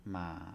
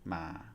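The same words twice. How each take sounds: First: The pitch stays low across the syllable. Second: The pitch stays low across the syllable.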